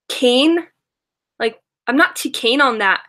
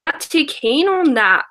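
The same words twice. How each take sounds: First: Put-on light Australian accent on "keen", vowel stretched toward "kayn"; a playful Australian "not too keen on that"; imitating Australian accent. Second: Slow Australian "keen", said like "kayn"; Australian accent, slow. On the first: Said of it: "And she says". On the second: Retold or imitated. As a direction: savour the Australian "keen" slowly. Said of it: "obsessed with the word keen".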